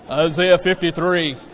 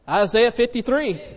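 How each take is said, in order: First: It is said in a deep, manly voice. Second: It is said in his normal voice.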